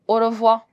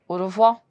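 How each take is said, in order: First: The final r sound is left off. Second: The final r sound is left off.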